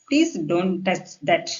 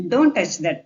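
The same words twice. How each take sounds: First: Very slow, polite wording; polite request. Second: Brisker, falling order; direct command. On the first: Teacher rewords an order for learners, slow polite request. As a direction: ask courteously, spacing the words out slowly. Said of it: "இந்த மாதிரி பொலைட்டா பேசினா". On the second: Teacher shows the blunt form to learners, direct command. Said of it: "தொடாத அப்படின்றத". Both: Shown as a demonstration.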